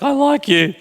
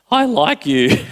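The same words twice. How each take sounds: First: Voice breaking. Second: Said in the usual way. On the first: Retold or imitated. Pastor replays his date confession, voice breaking high. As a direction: voice cracks up high on like. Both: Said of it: "Yes, my voice broke".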